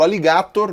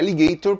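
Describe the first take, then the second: First: It is pronounced the Latin way. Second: It is pronounced the English way. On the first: "E eu falo alligator" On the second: "no lugar de alligator, porque alligator é a pronúncia em inglês"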